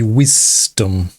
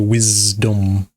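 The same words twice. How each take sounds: First: The middle consonant is a hissing S sound. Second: The middle consonant is a buzzing Z sound. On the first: The speaker calls it wrong. "You don't say wisdom" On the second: The speaker calls it right. "You pronounce it with a Z. You go wisdom"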